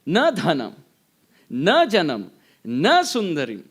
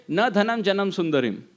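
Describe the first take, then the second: First: "Na dhanam, na janam, na sundarim" with every "na" punched; stress on each na. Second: Said in the usual way. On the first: Shown as a demonstration. Teacher shows negation before every object, punching each "na". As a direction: hit each "na" hard and pause after each phrase. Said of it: "individually uses the nakar, negation". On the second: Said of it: "and just say".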